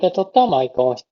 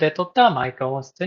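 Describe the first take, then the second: First: The voice sounds fuller and stronger. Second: The voice sounds neutral and unprocessed. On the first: "こちらがパワフルで撮ったマイク音質。" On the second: "こちらがナチュラルで撮ったマイク音質になります。"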